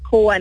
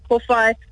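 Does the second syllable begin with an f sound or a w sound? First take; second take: w sound; f sound. First: The second syllable begins with a w sound. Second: The second syllable begins with an f sound. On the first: "We say kōwai" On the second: "not kōwhai"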